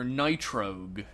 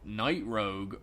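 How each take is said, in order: First: It is said as 'nitro' plus 'g'. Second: It is said as 'night' plus 'rogue'. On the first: The name suggests nitro, like a race car. The speaker calls it wrong. "there's nothing nitro about him" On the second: The name refers to the night. The speaker calls it right. "since he's a bat, a creature of the night, Night Rogue"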